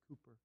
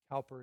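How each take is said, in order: First: The first syllable sounds like 'coo'. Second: The first syllable sounds like 'cow'. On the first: The speaker calls it right. "it's William Cooper" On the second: The speaker calls it wrong. "whose name I pronounced wrong. His name is not William Cowper"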